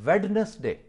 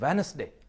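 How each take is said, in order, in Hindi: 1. बीच की d ध्वनि साफ़ उच्चारित होती है। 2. बीच की d ध्वनि मौन छोड़ दी जाती है। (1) "वेडनेसडे is no word" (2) "this is वेनसडे"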